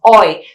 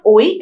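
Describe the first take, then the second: First: "oi" said the right way, a clean glide to E; "oi" as the model, gliding from O to E; correct oi. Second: "oi" said the wrong non-native way, rejected example; "oi" as the error, flagged as not correct. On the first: Teacher showing students the correct "oi". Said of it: "it's oi". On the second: Teacher showing students the mistaken "oi". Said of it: "It's not oi". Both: Shown as a demonstration.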